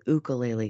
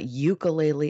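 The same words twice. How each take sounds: First: The word begins with an 'oo' sound. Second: The word begins with a 'yoo' sound. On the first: The speaker calls it right. "it's ukulele" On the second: The speaker calls it wrong. "I'm pronouncing it wrong. It's not ukulele"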